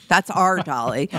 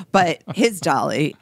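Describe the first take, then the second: First: "our" stressed and rising. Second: "his" stressed and rising. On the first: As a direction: lean on "our" in "that's our Dolly". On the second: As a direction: lean on "his" in "but his Dolly". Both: Shown as a demonstration.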